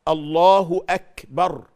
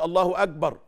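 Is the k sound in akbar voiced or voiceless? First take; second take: voiceless; voiced. First: The k is voiceless with an audible breathy release. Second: The k is voiced, sounding like a g. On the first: The speaker calls it right. "وإنما أك بالكاف، لازم تسمع الهمس" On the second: The speaker calls it wrong. "اوعى تقول الله أكبر، لأ أكبر غلط"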